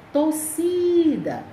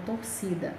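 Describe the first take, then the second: First: Torcida with a long, high SI; stress on SI. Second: Said in the usual way. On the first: Shown as a demonstration. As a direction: slowly stretch and raise the middle syllable of Torcida. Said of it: "a sílaba tônica é si".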